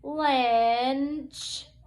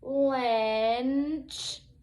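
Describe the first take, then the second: Both takes have the same delivery.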